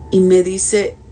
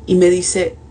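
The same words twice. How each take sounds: The two takes are said the same way.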